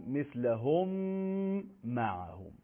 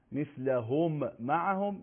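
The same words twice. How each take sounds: First: «مثلهم معهم» joined on a long held m; merged doubled mim. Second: Said in the usual way. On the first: Shown as a demonstration. Teacher demonstrating idgham to students, mim merged and held. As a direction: hum from «مثلهم» into «معهم», then let it drop. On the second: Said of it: "میم ساکن خونده نمیشه".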